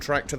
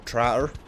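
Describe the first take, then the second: First: The middle 'k' sound is clearly pronounced. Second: The middle 'k' sound is dropped, doubling 't'.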